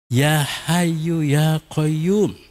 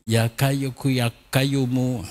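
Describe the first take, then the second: First: The first name begins with a breathy H sound. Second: The first name begins with a hard K sound. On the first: The speaker calls it right. "melafalkan ya Hayyu ya Qayyum secara fasih" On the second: The speaker calls it wrong. "Dia hanya mengatakan ya Kayyuku ya Qayyumu"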